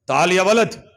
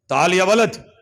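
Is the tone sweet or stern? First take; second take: stern; stern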